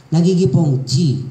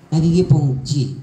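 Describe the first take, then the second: No difference in how they are said.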